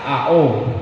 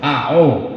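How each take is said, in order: First: The second vowel sounds like O. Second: The same.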